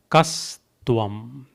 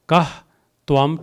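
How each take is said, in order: First: One joined word with an s sound. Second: Two separate words with a break between. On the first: "together would become kastvam" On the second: "It is actually kah and tvam"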